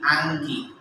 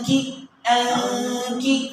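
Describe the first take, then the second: First: The nasal sound comes clearly from the nose front. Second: The nasal sound is hidden and barely heard. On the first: "নাকের একবারে সামন থেকে এই গুন্নাটা যদি আমি আদায় করতে চাই" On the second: "যখন গোপন করব, তো গোপন করাটা একবারে এই দিক থেকে"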